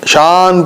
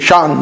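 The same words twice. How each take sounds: First: The vowel is drawn out smoothly without a catch. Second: The vowel is cut by a sharp glottal catch. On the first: The speaker calls it wrong. "आमतौर पर कैसी क़िरात होती है? ... शान पढ़ते हैं, शान नहीं है" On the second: The speaker calls it right. "शान बल्कि झटका है"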